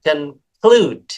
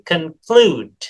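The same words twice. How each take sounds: First: The second vowel is long and drawn out. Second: The same.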